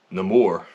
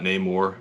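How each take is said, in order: First: "Namor" as nuh-MOR, stress on the second syllable; film's pronunciation of Namor. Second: "Namor" as NAY-more, long A first; rejected pronunciation of Namor. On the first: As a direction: say "Namor" with a short, reduced first vowel. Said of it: "it is pronounced Namor". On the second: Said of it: "Not Namor, we learn in the movie". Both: Shown as a demonstration.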